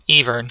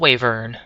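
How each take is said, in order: First: The word begins with an E sound. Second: The word begins with a W sound.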